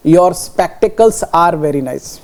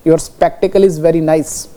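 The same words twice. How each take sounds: First: Right form read very slowly; slowly reading out the correct sentence; slow example. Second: Wrong form read very slowly; slowly reading out the wrong example. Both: Shown as a demonstration. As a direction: dictate it slowly.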